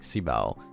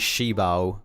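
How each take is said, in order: First: The first syllable sounds like 'see'. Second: The first syllable sounds like 'shee'. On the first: "I think it's just better like si bao" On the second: "it's just like shut your"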